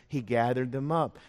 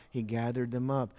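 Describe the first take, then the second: No difference in how they are said.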